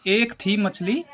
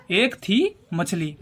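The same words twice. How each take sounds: First: Said in the usual way. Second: एक थी drawn out, pause before मछली; slow, spaced out. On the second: Shown as a demonstration. Teacher drilling a memory trick, एक थी मछली slowly spaced out. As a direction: stretch एक थी, then give मछली separately.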